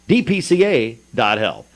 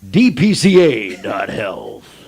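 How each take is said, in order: First: It is said in a plain speaking voice. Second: It is said in a big radio-announcer voice.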